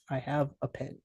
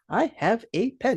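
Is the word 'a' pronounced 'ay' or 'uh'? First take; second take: uh; ay. First: The article 'a' is said as reduced 'uh'. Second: The article 'a' is said as full 'ay'. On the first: The speaker calls it right. "we say, uh, uh means one" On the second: The speaker calls it wrong. "I get so frustrated when I see a teacher, an English teacher, say"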